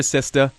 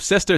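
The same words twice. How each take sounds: First: Boston "sister" ending in AH, the R dropped; in a Boston accent say "sister" as "sistah". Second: Said in the usual way. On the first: Shown as a demonstration. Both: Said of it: "just drop the R and say A instead".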